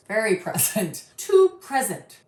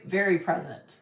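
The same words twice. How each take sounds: First: "Very" leaned on with a laugh before "present"; chuckling stress on "Very"; laughing emphasis. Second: Said in the usual way. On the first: Shown as a demonstration. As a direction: laugh through "Very present" to make it land.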